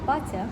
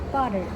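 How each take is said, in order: First: The t is a crisp, clear t. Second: The t is a quick flap. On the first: "British use a crisp" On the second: "American uses an alveolar flap for the t"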